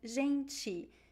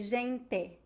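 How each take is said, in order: First: It ends with a 'ch' sound and an i vowel. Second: It ends with a plain t and an e vowel. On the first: This is the usual Brazilian pronunciation. "We usually say ti" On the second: This is how people in Paraná say it. "in Paraná they would say gente ... the E sound at the end"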